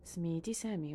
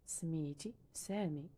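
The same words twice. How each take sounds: First: Said in the usual way. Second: سميتي سامي said slowly, each word drawn out; slow repeat. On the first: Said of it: "teacher models Darija phrase". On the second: Shown as a demonstration. Teacher repeating the Darija line slowly for learners. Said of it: "teacher repeats phrase slowly".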